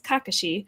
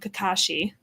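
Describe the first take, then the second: First: The name is said the Japanese way. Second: The name is said the anglicized way. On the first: The speaker calls it right. "should be pronounced as Kakashi" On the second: The speaker calls it wrong. "they call him Kakashi"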